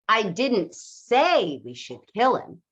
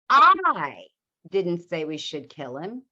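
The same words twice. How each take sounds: First: The stress falls on the word say. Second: The stress falls on the word I.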